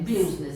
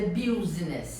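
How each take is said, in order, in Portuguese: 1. A primeira vogal soa como 'i'. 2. A primeira vogal soa como 'u'. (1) "é a co- pronúncia correta" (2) "muita gente pronuncia business. Não"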